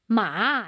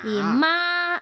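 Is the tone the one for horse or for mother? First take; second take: horse; mother. First: It is said with the tone meaning horse. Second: It is said with the tone meaning mother. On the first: The word means horse. "ma es caballo" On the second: The word means mother. "ma es mamá"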